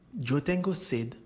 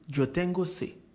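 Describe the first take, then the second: First: The final d of 'sed' is pronounced. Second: The final d of 'sed' is dropped. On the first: "Ou capable prononcer sed nan avec son D" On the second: "Ou gen doit dire yo tengo C"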